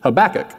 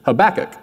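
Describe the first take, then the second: First: The stress is on the second syllable. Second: The same.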